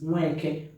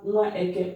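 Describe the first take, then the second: First: The vowels merge into one word without the a. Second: Both words are said separately with both vowels. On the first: "that is why we removed the A" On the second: "Nwa is child or baby. Eke is the market day"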